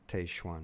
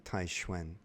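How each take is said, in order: First: The name gets an English-speaker pronunciation. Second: The name gets its Chinese pronunciation. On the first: The speaker calls it wrong. "that's how an English-speaking person would pronounce two Chinese characters, but they're mispronounced" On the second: The speaker calls it right. "if you were pronouncing them in Chinese, it would be Tai Xuan"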